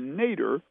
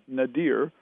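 First: The word ends with a short 'der' sound. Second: The word ends with a long 'deer' sound. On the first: "what we call the Nader. We're not talking Ralph" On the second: "Some people pronounce it Nadir"

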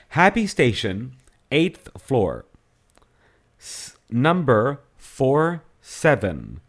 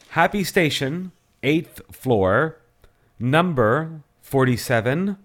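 First: It is read at a slower pace. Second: It is read at a normal, quicker pace.

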